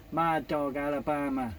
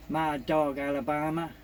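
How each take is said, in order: Both takes have the same delivery.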